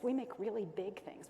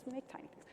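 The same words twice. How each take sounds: First: Said in the usual way. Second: Much softer, higher little voice; small, hushed and high; tiny voice. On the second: Real, not acted. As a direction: shrink the voice down to match "tiny". Voice shrinks to match tiny.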